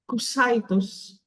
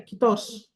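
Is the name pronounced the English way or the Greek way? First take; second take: English; Greek. First: The name is said with English sounds. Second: The name is said with Greek sounds.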